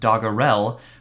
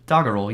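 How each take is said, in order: First: The ending sounds like 'Purell'. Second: The ending does not sound like 'Purell'. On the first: The speaker calls it wrong. "Looks like it might be pronounced" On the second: The speaker calls it right. "That is how you pronounce it"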